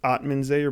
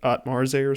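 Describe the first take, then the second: First: The consonant after 'Atma' is an n. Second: The consonant after 'Atma' is an r. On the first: The speaker calls it right. "It was" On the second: The speaker calls it wrong. "he pronounced it"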